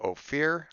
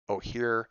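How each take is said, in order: First: The middle consonant is an F sound. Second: The middle consonant is an H sound. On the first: The speaker calls it wrong. "I thought it was O P H. I put a P in there" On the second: The speaker calls it right. "I actually pronounced the people's name correctly"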